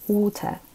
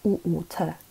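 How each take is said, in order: First: The word is said quickly as one smooth word. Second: The word is said slowly in separate parts.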